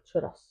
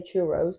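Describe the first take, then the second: First: "churros" with a tapped r, CHOO-doss; short "o", quick tapped r in "churros"; Spanish-style pronunciation. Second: "churros" as CHOO-roze, British style; long "oh" and z ending on "churros"; British pronunciation. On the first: Correcting the British way for partner, "churros" with tapped r. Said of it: "but it's, like, churros". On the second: Showing partner how Brits say it, "churros" as CHOO-roze. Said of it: "us Brits say churros". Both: Shown as a demonstration.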